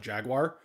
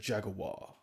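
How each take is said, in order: First: It is said in a plain American way. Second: It is said in a suave, posh advertising way. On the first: "we in Americans just call it Jaguar" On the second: "they're always like, oh, come over and purchase your Jaguar"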